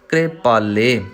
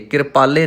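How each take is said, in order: First: The opening k and r form one quick cluster. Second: A vowel separates the opening k and r. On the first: The speaker calls it right. "ਕੱਕੇ ਨੂੰ ਮੁਕਤਾ ਰੱਖ ਕੇ ਰਾਰੇ ਨੂੰ ਆਪਾਂ ਸਿਹਾਰੀ ਲਾਉਣੀ ਹੈ" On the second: The speaker calls it wrong. "ਕਿਰਪਾਲੇ ਨਹੀਂ ਕਹਿਣਾ"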